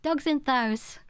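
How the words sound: It is said in the dad's northern dialect.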